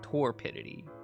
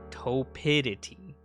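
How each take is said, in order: First: The word is said with an R sound. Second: The word is said without an R sound. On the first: The speaker calls it wrong. "I was gonna pronounce the R" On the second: The speaker calls it right. "It said the R was silent"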